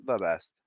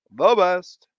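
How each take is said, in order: First: Said in the usual way. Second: Emphatic praise. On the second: Acted. Repeated louder.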